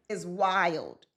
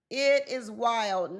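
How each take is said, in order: First: Said in the usual way. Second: It is wild, said slowly word by word; slow stress on wild. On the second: Shown as a demonstration. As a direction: stretch out "It is wild" for emphasis.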